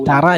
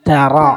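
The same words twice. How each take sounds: First: The r is light and thin. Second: The r is heavy and full-mouthed. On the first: The speaker calls it wrong. "മലയാളത്തിൽ തറ എന്ന് പറയുന്ന പോലെ പറഞ്ഞാൽ ശരിയാവൂല. തറ അല്ല" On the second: The speaker calls it right. "റ വായ നിറച്ച് കനപ്പിച്ച് പറയണം"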